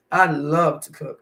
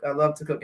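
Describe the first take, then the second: First: Slow, savoring I love to cook with weight on I; slow emphatic. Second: Said in the usual way. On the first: Shown as a demonstration. Cooking vlogger telling her viewers, slow and emphatic. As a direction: lean into I, drawing out I love to cook.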